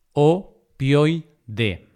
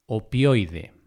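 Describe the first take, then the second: First: Opioide broken into o, pioi, de; syllable by syllable. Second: Said in the usual way. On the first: Shown as a demonstration. Teacher dividing opioide for learners, syllable by syllable. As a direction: say "opioide" as three separate syllables with pauses.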